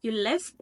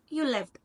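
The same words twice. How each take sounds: First: "left" lifts, making it a question; rising intonation. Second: "left" drops, making it a statement; falling intonation. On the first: Teacher asking if the person had left, rising intonation on "left". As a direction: raise the pitch on "left" as if asking. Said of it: "if you apply the rising intonation". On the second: Teacher saying the person had already left, falling intonation on "left". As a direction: let the pitch fall after "You" onto "left". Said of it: "with a falling intonation". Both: Shown as a demonstration.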